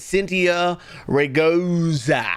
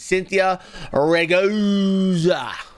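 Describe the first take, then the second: First: The surname is said quickly and plainly. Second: The surname is dragged out with exaggerated enunciation.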